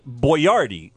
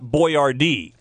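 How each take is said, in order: First: It is the intended pronunciation of the name. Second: It is the commonly used pronunciation of the name. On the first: This is how the name's owner meant it. The speaker calls it right. "it was Boyardee" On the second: This is how most people say it. The speaker calls it wrong. "not Boyardee"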